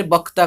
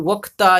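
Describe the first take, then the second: First: "बक्ता" starting with a b sound; Odia pronunciation. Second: "वक्ता" starting with a v sound; Hindi pronunciation. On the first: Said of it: "आमे यदि कहबा ओडिया रे". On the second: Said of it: "Odia रे बक्ता कहबा". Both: Shown as a demonstration.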